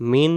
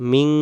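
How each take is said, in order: First: মিন with a clear short n; plain n. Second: মিং with a lingering nasal ng; held ng. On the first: Teacher showing the rejected sound, মিন with n. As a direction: close মিন on the tongue tip. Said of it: "মিন না হয়ে". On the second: Teacher showing the required sound, মিং with ng. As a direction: hold the hum ending মিং. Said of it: "বলতে হবে". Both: Shown as a demonstration.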